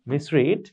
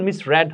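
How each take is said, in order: First: মিসরিড ending in "reed", ee sound; present-tense pronunciation. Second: মিসরেড ending in "red", short e; past-tense pronunciation. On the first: Teacher reads out the present form, মিসরিড said "mis-reed". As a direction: say মিসরিড with "reed", not "red". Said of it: "মিসরিড থেকে এটা উচ্চারণ মিসরেড". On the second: Teacher shows students the tricky past-tense sound, মিসরেড said "mis-red". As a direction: say মিসরেড with "red", not "reed". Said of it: "এটা উচ্চারণ মিসরেড হবে". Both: Shown as a demonstration.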